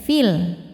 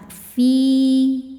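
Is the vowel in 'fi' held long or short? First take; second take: short; long. First: The vowel is short and runs into 'l'. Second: The vowel is held long, for two beats. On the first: The reciter continues into the next word. "Fi ini kita baca pendek" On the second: The reciter stops on this word. "Cara bacanya panjang dua harokat"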